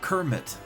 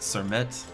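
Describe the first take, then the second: First: The word begins with a hard k sound. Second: The word begins with a soft s sound. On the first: "or Kermit" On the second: "like it's cement but Sermet"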